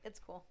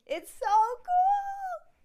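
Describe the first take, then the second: First: Said in the usual way. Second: Very high, loud, drawn-out squeal; real over-the-top gushing; excited squeal. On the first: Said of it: "I'm sorry". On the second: Real, not acted. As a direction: squeal it slowly with huge excitement. Gushing about their famous house, then apologizes.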